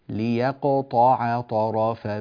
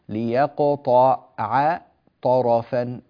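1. العبارة سلسة بلا انقطاع. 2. العبارة مقطّعة إلى أجزاء منفصلة. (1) "إنما تقرأ سلسة ميسورة" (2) "طبعا أنا أقطع لكم حتى تستوعبوا"

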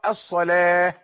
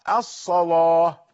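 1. صوت اللام مرقّق خفيف. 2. صوت اللام مفخّم ثقيل. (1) "نحن نقرأ الصلاة بترقيق اللام" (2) "ورش يقرأ الصلاة"

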